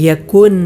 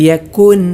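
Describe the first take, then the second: The two takes are said the same way.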